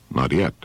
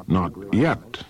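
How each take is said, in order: First: NOT YET said low, as a statement; low answer. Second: NOT YET drawn out, rising in question; questioning echo. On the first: Odysseus answers the Cyclops, low reply. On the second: Cyclops queries Odysseus's answer, questioning echo. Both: Acted.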